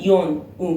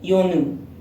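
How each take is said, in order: First: The two syllables are said separately with a break. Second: The consonant links smoothly into the next syllable. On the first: The speaker calls it wrong. "نمیگم یون اوم" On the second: The speaker calls it right. "میگیم یونوم"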